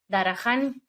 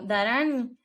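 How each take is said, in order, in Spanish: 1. La h en medio se pronuncia claramente. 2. La h en medio es muda. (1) "aquí me dicen en Estados Unidos" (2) "en español la H es muda"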